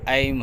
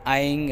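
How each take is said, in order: First: The syllable ends with an m sound. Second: The syllable ends with an ng sound. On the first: The power becomes stable and gentle. "जो मकार होता है यानी कि ऐम" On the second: The power becomes sharp and fierce. "किसी में आइंग आता है"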